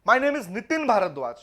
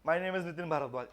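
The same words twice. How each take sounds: First: The name is said with extra stress. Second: The name is said plainly, without extra stress.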